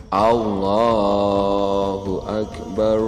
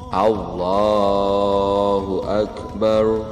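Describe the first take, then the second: No difference in how they are said.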